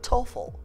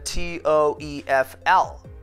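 First: It is said as a single word. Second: Each letter is said separately. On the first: The speaker calls it right. "به جایش چی می خوانن؟" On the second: The speaker calls it wrong. "شما هیچ فردی رو پیدا نمی کنین تلفظ کنه TOEFL"

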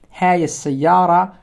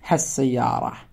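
First: The demonstrative is said as a full separate word. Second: The demonstrative is shortened and joined to the noun. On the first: "instead of saying" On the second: "we can say"

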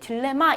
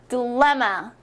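First: The middle syllable is not stressed. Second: The middle syllable is strongly stressed. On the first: The speaker calls it wrong. "우리 딜레마 이렇게 읽지 않습니다" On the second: The speaker calls it right. "여기 레의 가운데 강세가 있습니다. 그래서 강하게 발음을 해주셔야 돼요"

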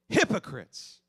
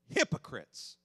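First: The word is loudly exclaimed with force. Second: The word is said calmly, without exclamation.

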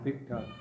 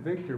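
First: The name ends with a plain vowel. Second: The name ends with an r sound. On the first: "but called him Victa" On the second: "She named him Victor"

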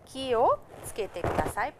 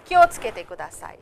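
First: Ki and o are said as separate syllables. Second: Ki and o merge into one fast syllable. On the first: "It means ki o tsukete kudasai" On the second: "it's said very fast"

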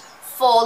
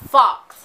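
First: The word ends in a vowel, no ks. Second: The word ends with a ks sound. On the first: The speaker calls it right. "Faux is French" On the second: The speaker calls it wrong. "It is not pronounced fox"

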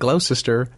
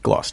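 First: It is said as spelled, every syllable sounded. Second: It is said in a shortened form. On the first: "looks like" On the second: "and it's"

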